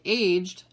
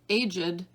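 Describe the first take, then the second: First: The word is said as one syllable. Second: The word is said as two syllables. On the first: "that's one syllable" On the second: "that's two syllables"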